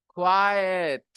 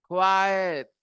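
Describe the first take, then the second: Both takes have the same delivery.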